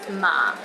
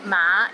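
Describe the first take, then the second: First: The pitch is at its very lowest. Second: The pitch rises from low to middle. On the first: It means linen. "in the fourth tone" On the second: It means horse. "in the fifth tone"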